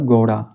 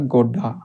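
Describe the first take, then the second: First: The middle consonant is a quick tongue flap. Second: The middle consonant is a hard stop. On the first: The speaker calls it right. "अगर बिंदी लगा देंगे यहाँ पे" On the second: The speaker calls it wrong. "ढ की sound देगा, ना कि अढ़ की"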